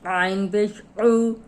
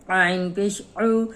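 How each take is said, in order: No difference in how they are said.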